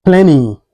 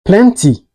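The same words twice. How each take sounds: First: PLENTY with the T dropped, "plenny". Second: PLENTY with a clear T after N; T fully pronounced. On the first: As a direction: say "plenty" American style, like "plenny". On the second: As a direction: say "plenty" with a crisp T. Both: Shown as a demonstration. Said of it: "is pronounced like".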